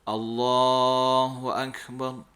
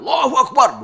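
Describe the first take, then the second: First: It is said calmly and humbly, with restraint. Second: It is shouted forcefully, like a battle cry. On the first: It expresses humble submission in prayer. The speaker calls it right. "kalau tidak mengubudiahkan diri itu Allahu Akbar" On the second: It rouses fighting spirit, as on a battlefield. The speaker calls it wrong. "bukan takbir kita pai parang Allahu Akbar, bukan begitu"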